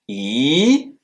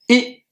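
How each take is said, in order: First: The pitch rises from middle to high. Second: The syllable is short and light, unmarked. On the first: "un ton qui monte" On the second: "un ton neutre"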